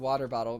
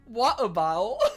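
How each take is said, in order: First: The T sounds are clearly pronounced. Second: The T sounds are dropped.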